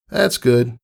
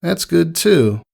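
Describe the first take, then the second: First: High, trailing pony voice; awkward Rainbow Dash. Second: High pony voice, trailing off; awkward Rainbow Dash. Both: A narrator's reading. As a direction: at a loss for words.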